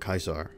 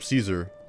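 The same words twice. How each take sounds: First: It uses the ancient Latin pronunciation. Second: It uses the usual modern English pronunciation. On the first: This is how it was said in antiquity. "in the actual ancient Latin, they would have called him Caesar" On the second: This is how people say it today. "we all call him Caesar"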